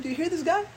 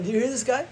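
First: High, scornful Pharaoh's court; mocking courtier; mocking scoff. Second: High, scornful repeat; mocking courtier repeated; mocking scoff. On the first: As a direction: scoff at him in disbelief. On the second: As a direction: scoff at him again. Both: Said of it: "they were saying".

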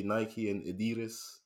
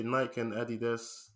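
First: Nike as NY-kee, Adidas as uh-DEE-dus; American pronunciation. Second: Nike as one syllable rhyming with bike, Adidas as AD-ee-das; British pronunciation. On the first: Explaining US speech to co-host, Nike with -ee, Adidas stressed on DEE. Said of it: "In the U S they say". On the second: Explaining UK speech to co-host, Nike like bike, Adidas stressed first. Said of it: "in the U K we say". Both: Shown as a demonstration.

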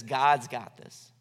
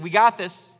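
First: Slow, lower, settled trust; unhurried, lower-pitched statement of faith; trusting believer. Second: Loud, cocky claim; proud boast, punched out louder; self-assured Babylonians. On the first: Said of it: "What the just do is says". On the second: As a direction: say it with brash self-confidence. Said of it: "'Cause the Babylonians, they said". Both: Acted.

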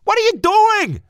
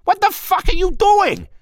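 First: Very high, loud panicked yell; belted shout. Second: Very high, loud furious shout; explosive yell. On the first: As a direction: belt it out in alarm. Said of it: "Marty belted". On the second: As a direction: explode at him in panic. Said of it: "Marty exploded". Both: Acted.

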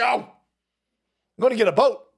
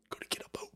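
First: Said out loud and firm, a bit louder; emphatic declaration. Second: Whispered aside. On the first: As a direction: announce it firmly to the room. Declaring plan, then whispering it. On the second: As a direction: repeat it in a breathy whisper, to yourself. Repeats plan as private aside. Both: Real, not acted.

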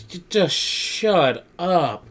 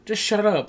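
First: "just shut up" stretched very slowly, high; slow, high mock exasperation; exasperated drawn-out retort. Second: "Just shut up" said high and brisk; high, impatient imitation without dragging; quick exasperated retort. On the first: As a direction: drag out each word of "just shut up". [name] silencing the insults. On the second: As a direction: cut them off in a raised pitch. Same retort repeated, quicker.

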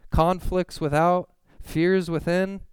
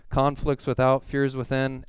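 First: Higher, slow and emphatic; dramatic scripture reading. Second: Said in the usual way. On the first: Acted. Preacher proclaiming Paul's hardships, slow and high. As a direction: lean hard into each phrase.

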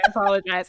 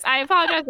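First: Said in the usual way. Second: Sing-song higher I apologize; mock-sweet higher sorry; higher apology. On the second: Shown as a demonstration. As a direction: apologize pitched up high.

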